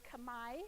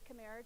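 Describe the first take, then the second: First: It is said the way Cambodians say it. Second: It is said the usual American way. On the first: "they actually pronounce it there Khmer" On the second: "that's what we're used to saying in the United States"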